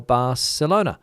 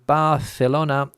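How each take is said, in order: First: Barcelona with a clear s, "Bar-selona". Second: Barcelona with a th, "Bar-thelona"; lisped C. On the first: Listener asks which pronunciation is right, Barcelona with s. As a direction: say Barcelona's C as a plain s. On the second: Listener asks which pronunciation is right, Barcelona with th. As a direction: say Barcelona's C like th in think. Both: Shown as a demonstration. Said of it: "I wish I knew the rules for pronunciation".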